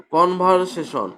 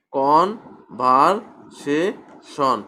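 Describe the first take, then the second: First: Said in the usual way. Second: কনভারসেশন very slowly as con-ver-sa-tion, pause after each part; broken into syllables. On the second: Shown as a demonstration. Teacher shows four syllables, কনভারসেশন slowly broken apart. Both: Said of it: "এখানেও চারটি syllable".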